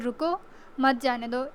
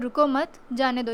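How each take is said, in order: First: The pause comes right after 'रुको'. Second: The pause comes right after 'मत'.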